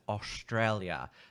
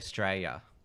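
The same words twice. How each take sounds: First: The o vowels are strongly emphasized. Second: The o vowels are not emphasized. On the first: "Americans they pronounce Australia as Australia. They emphasize the os" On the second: "Australians they just tend to say Australia"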